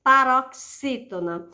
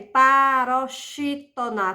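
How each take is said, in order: First: "paroxítona" with X as "ks"; X pronounced "ks". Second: "paroxítona" slowly, with X as a "sh" sound; spelling pronunciation. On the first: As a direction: say "pa-rok-sí-to-na" for "paroxítona". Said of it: "você pronuncia paroxítona". ("paroxítona" com X som de "cs") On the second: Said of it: "Se escreve paroxítona com X". ("paroxítona" devagar, com X som de "ch") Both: Shown as a demonstration.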